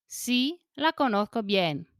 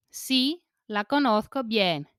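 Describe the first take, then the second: No difference in how they are said.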